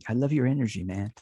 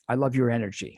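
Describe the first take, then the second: First: It is said in an old-hippie voice. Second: It is said in his own plain voice.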